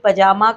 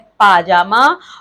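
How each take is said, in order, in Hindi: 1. पहला स्वर छोटा है। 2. पहला स्वर लंबा है। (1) "ऐसे ही पजामा का" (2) "शुद्ध है पाजामा"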